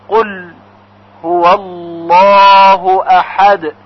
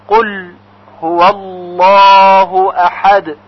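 Both takes have the same delivery.

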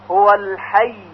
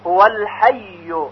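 First: The final word ends with no vowel at all. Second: The final word ends with a full u vowel. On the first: The reciter stops fully on the word. "با سکون در حالت وقت" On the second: The reciter continues without stopping. "با ضمه کامل که در وصل میخونیم"

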